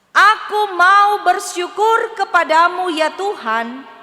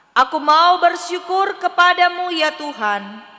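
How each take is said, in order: Both takes have the same delivery.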